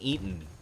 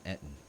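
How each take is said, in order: First: The first syllable sounds like the word 'eat'. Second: The first syllable has a short 'et' sound. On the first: The speaker calls it wrong. "Or an Eaton. Even though I hate when people pronounce it like that. Because it makes it sound like you're you're eating food" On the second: The speaker calls it right. "It's an Ettin"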